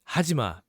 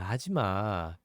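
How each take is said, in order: First: It is said strongly, in an angry tone. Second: It is said lightly, in a joking tone. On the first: Stop it right now. "if really strong, then it's like, stop it right now" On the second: Keep going and I might get annoyed. "it's kind of joking"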